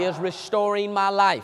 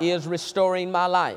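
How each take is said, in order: First: It is said with passion and energy. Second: It is said plainly, without much passion.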